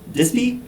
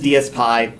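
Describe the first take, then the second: First: The name is said as 'Dispy'. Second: The name is not said as 'Dispy'. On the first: This is the speaker's preferred way to say it. "this should be pronounced Dispy" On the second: This is how the name's creator says it. "he says DSPy"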